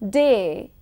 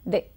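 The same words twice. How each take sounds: First: The vowel glides from one sound to another. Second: The vowel stays as one steady sound.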